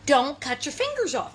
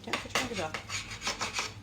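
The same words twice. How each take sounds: First: Said in the usual way. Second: Softer, slow whispered "don't cut your fingers off"; whispered warning. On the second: Shown as a demonstration. Reminding viewers about knives, slow whispered warning. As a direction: hush it like a spooky reminder. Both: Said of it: "I'm always reminding you".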